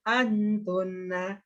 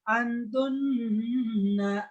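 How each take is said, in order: First: The nasal sound is said plainly, like conversation. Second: The nasal sound is held long, recitation style. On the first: It is ordinary everyday speech. The speaker calls it right. "seperti orang cakap bahasa biasa aja" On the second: It follows formal Quran recitation rules. The speaker calls it wrong. "nggak usah antunna"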